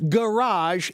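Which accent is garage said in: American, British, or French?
French. The word is said with a French pronunciation. "it's pronounced garage in French"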